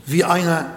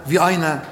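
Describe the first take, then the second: No difference in how they are said.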